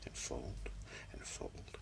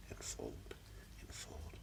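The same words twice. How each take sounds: The two takes are said the same way.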